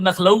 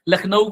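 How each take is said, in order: First: The word begins with an 'n' sound. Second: The word begins with an 'l' sound. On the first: The speaker calls it wrong. "लखनऊ को नखलऊ बोलता है" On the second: The speaker calls it right. "लखनऊ को नखलऊ बोलता है"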